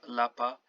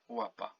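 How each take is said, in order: First: The first sound is like English L. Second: The first sound is like English W. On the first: The speaker calls it wrong. "not lapa" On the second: The speaker calls it right. "łapa, which means paw"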